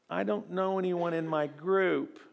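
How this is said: It is said in a whiny, weak put-on voice. "I say it kind of weeny like that"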